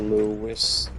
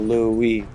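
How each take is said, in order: First: The name ends with an s sound. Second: The name ends in a vowel, no s. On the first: "when you add the S" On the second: "you just go Louis"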